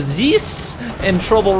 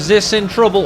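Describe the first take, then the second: First: The vowel in the name is a long ee. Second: The vowel in the name is a short i. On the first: The speaker calls it right. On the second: The speaker calls it wrong.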